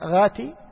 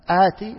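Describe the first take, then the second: First: The word begins with a throaty gh sound. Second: The word begins with a glottal stop. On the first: "ينطق ايش؟ غين" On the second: "ينطق الهمزة"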